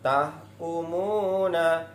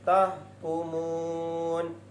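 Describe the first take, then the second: First: The word ends with a final -a vowel. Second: The word stops on the n sound. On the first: The word is read in continuous flow. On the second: The reader pauses on the word.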